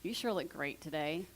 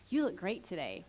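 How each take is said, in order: First: It is said in a sarcastic tone. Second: It is said in a sincere tone.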